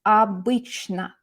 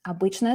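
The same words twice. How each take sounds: First: Slow, drawn-out "Обычно"; key word demo. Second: Said in the usual way. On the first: Shown as a demonstration. Teacher giving students the key word, "Обычно" said slowly. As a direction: stretch each syllable of "Обычно". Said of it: "what's our key word?".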